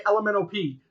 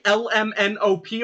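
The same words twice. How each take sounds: First: L M N O P slurred together like the alphabet song; quick run-together L M N O P; fast, with rhythm. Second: L M N O P with each letter separate; L, M, N, O, P as distinct letters. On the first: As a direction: rattle off L M N O P as one word. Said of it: "fast and with, like, a rhythm". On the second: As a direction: deliberately space out L M N O P. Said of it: "Do you say". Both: Shown as a demonstration.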